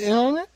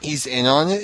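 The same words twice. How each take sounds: First: Sharply higher, disbelieving rise; incredulous question. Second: Said in the usual way. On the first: Shown as a demonstration.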